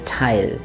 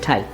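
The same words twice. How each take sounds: First: The vowel is held long. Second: The vowel is rushed and short. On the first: The speaker calls it right. "We are going to say tile" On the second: The speaker calls it wrong. "We are never going to rush through it and say tile"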